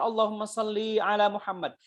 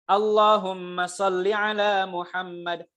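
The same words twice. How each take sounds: First: Salli ends in a long final vowel. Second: Salli ends in a short final vowel. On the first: It addresses a feminine word. The speaker calls it wrong. "Ini salah, ya. Kalau ada ya-nya, itu untuk dia perempuan" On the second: It addresses a masculine word. The speaker calls it right. "yang pertama"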